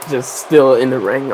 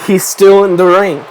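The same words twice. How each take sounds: First: Said in the usual way. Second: Louder ringside announcer call. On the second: Shown as a demonstration. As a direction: call it out like the commentator. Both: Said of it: "Just say that".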